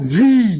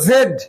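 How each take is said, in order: First: The letter is pronounced as 'zee'. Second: The letter is pronounced as 'zed'. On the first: "জেড অথবা জি" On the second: "এই জেড এর উচ্চারণ দুটো হয় জেড অথবা জি বলো জেড"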